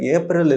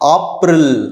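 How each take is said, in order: First: It is said with an English pronunciation. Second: It is said with a German pronunciation. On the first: The speaker calls it wrong. "ஏப்ரல் இல்லை" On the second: The speaker calls it right.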